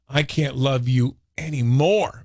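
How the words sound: It sounds affectionate, like loving completely.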